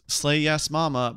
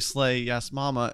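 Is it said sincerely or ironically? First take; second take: sincerely; ironically. First: It is said sincerely, with genuine enthusiasm. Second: It is said ironically, with knowing humor.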